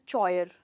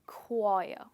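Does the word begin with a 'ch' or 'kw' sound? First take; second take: ch; kw. First: The word begins with a 'ch' sound. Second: The word begins with a 'kw' sound. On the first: The speaker calls it wrong. "इसको कहा जाएगा चॉयर" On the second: The speaker calls it right. "But actually ये word है क्वायर"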